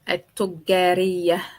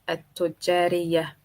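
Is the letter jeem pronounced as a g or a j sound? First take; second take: g; j. First: The jeem is pronounced as a hard g sound. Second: The jeem is pronounced as a j sound.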